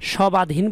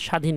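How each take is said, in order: First: A 'b' sound is pronounced after the 's'. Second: No 'b' sound is pronounced after the 's'. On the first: The speaker calls it wrong. "এখানে সবাধীন বলি না" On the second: The speaker calls it right. "কিন্তু আমরা স্বাধীন বলি"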